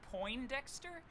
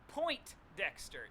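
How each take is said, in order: First: It is said with no t after 'poin'. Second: It is said with a clear t, like 'point'. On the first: The speaker calls it right. "There's no T" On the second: The speaker calls it wrong. "Have I been saying this wrong"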